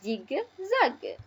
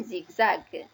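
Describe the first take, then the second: First: "zigzag" in two distinct syllables, zig, zag; teacher's syllable-by-syllable "zigzag"; split into syllables. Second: Said in the usual way. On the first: Shown as a demonstration. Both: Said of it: "L'association de ces deux syllabes".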